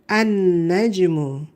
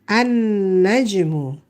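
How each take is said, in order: The two takes are said the same way.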